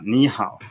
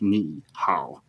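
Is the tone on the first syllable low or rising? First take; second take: rising; low. First: The first syllable rises in pitch. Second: The first syllable keeps a low dipping tone. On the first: The speaker calls it right. "then you change the first one" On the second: The speaker calls it wrong. "It's really hard. It's a strain"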